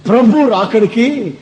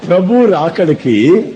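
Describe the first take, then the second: First: Prabhu drawn out and leaned on, slowly; slow down and press Prabhu in Prabhu రాకడికి; slow stress on Prabhu. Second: Prabhu stressed, Prabhu రాకడికి rising slowly. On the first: Preacher to congregation, slow stress on Prabhu. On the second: Preacher urging listeners, slow rising stress on Prabhu. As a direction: press Prabhu and lift the end of Prabhu రాకడికి. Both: Shown as a demonstration. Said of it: "బాగా వినాలి మీరు".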